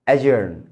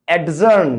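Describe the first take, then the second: First: The d sound before the j is silent. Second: The d sound before the j is pronounced. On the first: The speaker calls it right. "ডিটা silent হয়ে যায়" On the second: The speaker calls it wrong. "অ্যাডজার্ন না"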